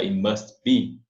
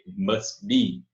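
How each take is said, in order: First: The t of must is pronounced. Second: The t of must is dropped. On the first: "ou simplesmente pode pronunciar" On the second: "você pode engolir esse T"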